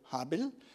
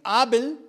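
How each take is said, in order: First: The name begins with an h sound. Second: The name begins directly with a vowel.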